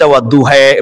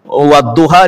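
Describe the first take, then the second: First: The final vowel is shifted toward an 'e' sound. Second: The final vowel is an open 'a' sound. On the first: This is a variant reading that sounds strange but is valid. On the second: This is the usual reading.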